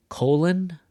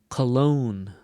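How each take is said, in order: First: "colon" said KO-lon, first syllable high and loud; stress on first syllable. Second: "cologne" said co-LOGNE, slow, weight on the end; stress on second syllable. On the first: Teacher contrasting two words, stressing the start of "colon". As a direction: punch the front of "colon", let "lon" fall away. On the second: Teacher contrasting two words, stressing the end of "cologne". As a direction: lean into "logne", keep "co" light. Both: Shown as a demonstration. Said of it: "the difference between the words".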